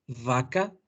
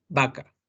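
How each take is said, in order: First: "Vaca" con la v labiodental, labio inferior contra los dientes. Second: "vaca" con b bilabial, como la B de burro. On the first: ("Vaca" con v labiodental) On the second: ("vaca" con b bilabial) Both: Shown as a demonstration. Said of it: "Suenan diferente".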